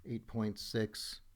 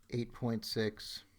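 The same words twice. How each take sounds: The two takes are said the same way.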